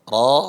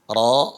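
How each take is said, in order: The two takes are said the same way.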